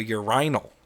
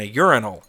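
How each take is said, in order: First: Urinal as "yur-EYE-nul"; British urinal. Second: Urinal as "YUR-in-ul", stress first; American urinal. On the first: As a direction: stress a long I in urinal. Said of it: "they go to a urinal". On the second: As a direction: say urinal with a short I. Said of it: "different than the way we pronounce them". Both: Shown as a demonstration.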